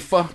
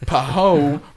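First: It is said as one syllable, fa. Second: It is said as two syllables, po-ho. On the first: The speaker calls it right. "it's actually Fa" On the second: The speaker calls it wrong. "Like when you see Po-Ho"

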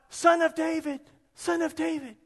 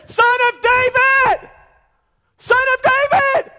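First: It is said quietly, without shouting. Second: It is yelled loudly, like screaming.

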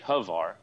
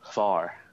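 First: The name is said as two syllables. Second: The name is said as one syllable. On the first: The speaker calls it wrong. "It shouldn't be Havar" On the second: The speaker calls it right. "if you really say it right, it's called Var. You kind of, it should be one syllable"

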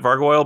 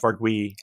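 First: The word ends in an 'oil' sound. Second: The word ends in a 'wee' sound. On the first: This is the casual, habitual way of saying it. The speaker calls it wrong. "I've always colloquially said it Vargoyle" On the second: This is the proper way of saying it. The speaker calls it right. "Actually should be pronounced Vargui"

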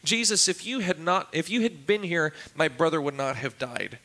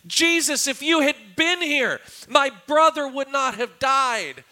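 First: It is spoken calmly and evenly, like a fact. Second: It is spoken loudly with raw, anguished emotion. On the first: It is a plain statement of fact. The speaker calls it wrong. "so composed and very, very factually" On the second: It is a cry of grief and accusation. The speaker calls it right. "the words were probably screamed more than stated"

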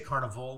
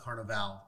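First: It is said with an English pronunciation. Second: It is said with a South American pronunciation. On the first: A local fair with rides and games. The speaker calls it right. "make sure we say carnival" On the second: The festival held in Rio. The speaker calls it wrong. "not carnival. Totally different things"

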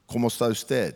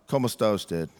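First: It is said with a fluent native Spanish accent. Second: It is said with a flat English accent. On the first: The speaker sounds like a confident native speaker. "they want you to say it, like, and then roll your R's" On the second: The speaker feels awkward and self-conscious. "I ain't going to be saying it like that"

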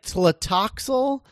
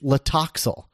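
First: The first T sound is pronounced. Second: The first T sound is left out. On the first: "Like most of the time" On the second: "Like the T is silent"

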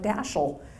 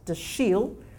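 First: The stress is on the first syllable. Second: The stress is on the second syllable. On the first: The speaker calls it wrong. "people on TV kept saying things like Dashiell" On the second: The speaker calls it right. "slight emphasis on the second"

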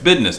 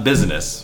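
First: The middle consonant is a d sound. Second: The middle consonant is a z sound. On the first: It is casual everyday talk. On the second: It is formal and proper. "Business is sounds very proper"

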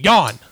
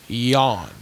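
First: The word is screamed loudly. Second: The word is said calmly and quietly.

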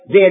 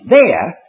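First: The word 'there' is weak and unstressed. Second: The word 'there' is strongly emphasized. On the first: It only introduces that something exists. The speaker calls it wrong. "don't say, "There is neither."" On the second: It points to a place, in Christ. The speaker calls it right. "Emphasize it, there"

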